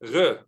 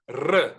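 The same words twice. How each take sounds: First: The R is uvular, as in Israeli. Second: The R is trilled, as in Italian.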